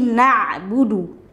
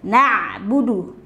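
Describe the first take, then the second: No difference in how they are said.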